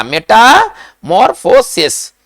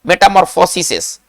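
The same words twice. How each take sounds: First: मेटामॉर्फोसिस very slowly, syllable by syllable; plural broken down. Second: Said in the usual way. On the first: Shown as a demonstration. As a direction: stretch out each part of मेटामॉर्फोसिस, ending on a clear "-ses". (मेटामॉर्फोसिस को तोड़-तोड़कर, धीरे-धीरे) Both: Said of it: "इसका plural कैसे बनेगा?".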